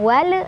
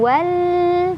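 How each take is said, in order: First: The final l is released with a bounce. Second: The final l is held for a long time. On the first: "bukan wal, bukan mantul" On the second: "bukan juga ditahan wal"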